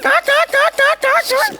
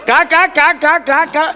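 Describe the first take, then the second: First: It is said in the puppet's put-on voice. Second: It is said in the speaker's own voice.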